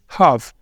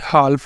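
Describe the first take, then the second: First: The L sound is left silent in the word. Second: The L sound is pronounced in the word. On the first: The speaker calls it right. "एल यहाँ पे क्या रहेगा silent" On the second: The speaker calls it wrong. "ये हाल्फ नहीं बोलेंगे"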